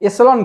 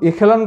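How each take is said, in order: First: The middle consonant is an s-like sound. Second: The middle consonant is a k-like sound. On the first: "আবার কোনো কোনো ব্যক্তি এটার উচ্চারণ এসেলন করেন" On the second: "কোনো কোনো ব্যক্তি এটার উচ্চারণ এখেলন করেন"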